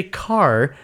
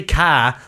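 First: "car" with a clear hard R; teacher modelling the R in "car". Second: "car" as "cah", no R; dropped R. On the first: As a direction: say "car" slowly, curling the R. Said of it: "when you say car". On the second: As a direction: say "car" Boston-style, R left off. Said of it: "how I know to say R with a hard R". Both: Retold or imitated.

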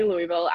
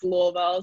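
First: Louisville said "LOO-ee-vil", with a clear ee; forbidden outsider pronunciation. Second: Louisville said "LOO-uh-vul", middle swallowed; corrected local pronunciation. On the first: Teammates warning the newcomer, Louisville as "LOO-ee-vil". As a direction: sound the middle ee in Louisville. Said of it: "You can't ever say Louisville". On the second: Teammates correcting the newcomer, Louisville as "LOO-uh-vul". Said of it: "like, it's Louisville". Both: Retold or imitated.

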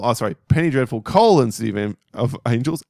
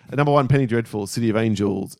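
First: Corrected title read with colon leaned on; stress on colon. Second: Said in the usual way. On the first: Shown as a demonstration. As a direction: hit the word colon hard and pause on it. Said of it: "Emphasis on the colon". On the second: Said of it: "Emphasis on the col".

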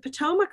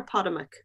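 First: Potomac said puh-TOH-muck; second-syllable stress. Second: Potomac said POD-uh-muck; first-syllable stress. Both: Shown as a demonstration. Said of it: "Is it Potomac or Potomac?".

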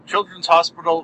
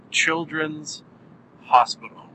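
First: Said in the usual way. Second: Put-on long pause between "Children's" and "Hospital"; teasing reveal. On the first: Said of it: "I will stop doing it and say". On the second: Shown as a demonstration. Podcaster finally revealing the show title, teasing pause before "Hospital". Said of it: "I'm almost teasing it for some reason".

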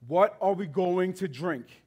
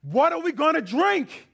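First: Slow, plain reading of the grumble; slow quoted question. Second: Much higher, louder complaining cry; angry grumbling demand. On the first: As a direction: lay the question out slowly, barely acted. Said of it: "The people grumbled to Moses". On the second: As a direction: hurl the question at the leader. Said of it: "they turn to their leader and they say". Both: Retold or imitated.

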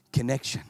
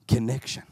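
The two takes are said the same way.

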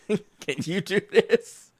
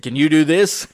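First: Slow, higher, laughing repeat; laughing through it. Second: Said in the usual way. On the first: Retold or imitated. Repeating the dishwasher taunt, laughing. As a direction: let the laugh take over the words.

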